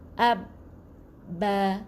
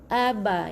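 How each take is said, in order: First: The b sound is doubled and held. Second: The b sound is single and short. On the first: The letter carries a shadda, giving two ba letters. The speaker calls it right. "kena tekan eh?" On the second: Only one ba letter is read. The speaker calls it wrong. "Tak boleh aba"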